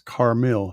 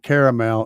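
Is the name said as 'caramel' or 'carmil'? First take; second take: carmil; caramel. First: It is said as two syllables, car-mil. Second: It is said like the word caramel. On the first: The speaker calls it right. "it's Carmil, C A R M I L. That's how his name is pronounced" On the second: The speaker calls it wrong. "it's not caramel"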